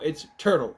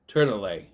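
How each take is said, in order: First: The name ends plainly on the L sound. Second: The name ends with an added vowel sound. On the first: The speaker calls it right. "No, it's turtle" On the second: The speaker calls it wrong. "Does he think there's an accent on the E"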